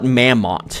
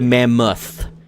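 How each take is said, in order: First: The word ends with a plain t sound. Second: The word ends with a th sound. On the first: The speaker calls it wrong. "Why do people call it Mammoth" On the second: The speaker calls it right. "how hard is it to just add the H at the end"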